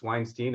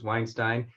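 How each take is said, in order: First: The name is said the coastal way. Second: The name is said the Midwest way. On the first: This is how people on the coasts say it. "on the East Coast and the West Coast, it's Weinstein" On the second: This is how people in the Midwest say it. "In the mid- Midwest, it was Weinstein"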